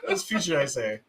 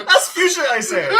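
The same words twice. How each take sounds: First: Said in the usual way. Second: High, loud laughing delivery. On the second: Real, not acted. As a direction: crack up at the joke. Joke, then repeated quieter.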